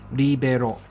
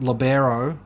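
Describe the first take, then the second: First: "Libero" opening with a long LEE; careful pronunciation. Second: "libero" as luh-BAIR-oh; weak first vowel in libero, stress on BAIR; rejected pronunciation. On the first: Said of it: "How do you pronounce it?". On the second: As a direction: say libero as luh-BAIR-oh, questioning rise at the end. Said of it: "Not libero". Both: Shown as a demonstration.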